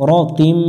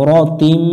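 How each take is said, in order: The two takes are said the same way.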